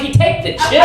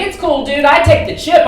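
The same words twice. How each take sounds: First: Higher, disbelieving echo question; incredulous echo. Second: Imitating a breezy, higher-voiced panhandler; mock easygoing assurance, pitched up; casual reassurance. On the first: Retold or imitated. Comic questions panhandler's card reader, incredulous. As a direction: throw it back as a mock-amazed question. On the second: Panhandler brushes off comic's excuse, casually reassuring.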